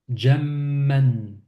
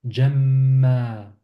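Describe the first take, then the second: First: The word ends with an n sound. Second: The word ends on a vowel, without n.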